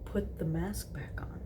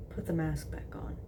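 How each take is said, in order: First: Soft repeat. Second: Hushed seductive murmur. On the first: Acted. Repeats murmured request. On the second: A narrator's reading. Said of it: "he murmured".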